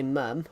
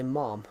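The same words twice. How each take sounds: First: "mum" with a short uh vowel; plain British "mum", short central vowel; British pronunciation. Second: "mom" with an open ah vowel; American pronunciation. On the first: Contrasting British people with Americans, British "mum". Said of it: "British people say mum". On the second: Contrasting Americans with British people, American "mom". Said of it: "American people say mom". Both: Shown as a demonstration.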